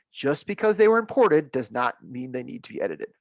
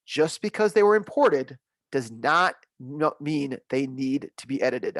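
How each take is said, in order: First: Said in the usual way. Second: Each word pressed out slowly; slow it down so it sinks in; slow emphatic stress. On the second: Shown as a demonstration. Trainer stressing the point to worried users. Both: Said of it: "I wanna say that again".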